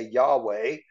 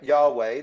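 First: Yahweh echoed with a rising tune; Yahweh repeated. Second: Yahweh, YAH-way with a rising end; Yahweh spoken slowly and clearly. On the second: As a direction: sound out Yahweh as yah-weh. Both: Shown as a demonstration. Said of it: "what we say".

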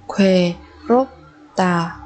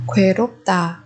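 First: "Khuê rốp tà" in separate syllables. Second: Said in the usual way. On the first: Shown as a demonstration. Teacher modelling a new word for learners, syllable by syllable. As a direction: break "Khuê, rốp, tà" apart with pauses.

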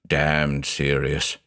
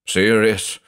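First: Slow, low and softer, dwelling on damned; said slowly. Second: Said in the usual way. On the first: A narrator's reading. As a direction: drag out "Damned serious" heavily and gravely. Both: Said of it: "he said slowly".

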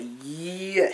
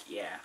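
First: Drawn-out "Yeah" with a big swoop; imitating her reply. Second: Short, low, quiet "Yeah"; understated yeah. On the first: Showing how she said it, exaggerated drawn-out mimicry. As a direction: stretch and swing the word, mimicking her. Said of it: "She wasn't like, "Yeah". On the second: Shown as a demonstration. Showing how she didn't say it, low and quiet. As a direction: drop it low and soft, quickly. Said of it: "She wasn't like".

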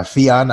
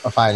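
First: "Fionn" said as FEE-on; unsure pronunciation. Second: "Fionn" said as FYE-on; alternative pronunciation. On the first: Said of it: "I don't even know how to say it". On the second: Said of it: "tell us how to say your name". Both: Shown as a demonstration.

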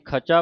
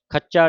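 First: ਖਚਾ with a soft single ਚ; soft, undoubled consonant. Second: ਖੱਚਾ with a hard doubled ਚ; tight doubled consonant. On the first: Teacher showing the congregation the correct reading, ਖਚਾ with undoubled ਚ. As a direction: say ਖਚਾ lightly, without doubling the ਚ. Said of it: "ਇਹ ਪੋਲਾ ਹੈ". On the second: Teacher warning against a misreading, ਖੱਚਾ with doubled ਚ. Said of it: "ਖੱਚਾ ਨਹੀਂ ਕਹਿ ਦੇਣਾ". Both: Shown as a demonstration.

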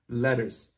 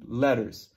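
No difference in how they are said.

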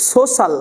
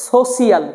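First: "সোশ্যাল" said as so-sal; two smooth syllables in "সোশ্যাল", so-sal; common pronunciation. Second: "সোশ্যাল" said as so-si-al; spelling pronunciation. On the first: Teacher showing what was said, "সোশ্যাল" as so-sal. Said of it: "কিন্তু আমরা সেখানে বলেছি". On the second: Teacher asking about the spelling, "সোশ্যাল" as so-si-al. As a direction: pull "সোশ্যাল" into three parts, so-si-al. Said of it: "বলার দরকার ছিল". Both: Shown as a demonstration.

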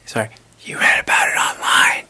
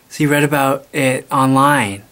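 First: Stage whisper. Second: Said in the usual way. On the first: Acted. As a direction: whisper it hard so the parents don't wake. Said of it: "Could you keep it down a little bit?".

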